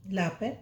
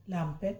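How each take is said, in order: First: Says ला, the short letter sound, with no final m; ला पे with short ला, the corrected take. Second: Says लाम, the full letter name, by mistake; लाम पे with the full name लाम, an erroneous first take; wrong letter name. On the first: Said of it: "ये ला है". (सही उच्चारण "ला", बिना म के) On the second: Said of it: "लाम नहीं बोला जाता, सॉरी". (ग़लती से पूरा नाम "लाम" बोलना) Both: Shown as a demonstration.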